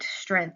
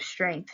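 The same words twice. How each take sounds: First: It is said without the G sound. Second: It is said with the G sound.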